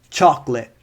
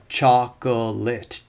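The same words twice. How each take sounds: First: The word is said with two syllables. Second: The word is said with three syllables. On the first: "we move to two syllables" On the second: "That's three syllables"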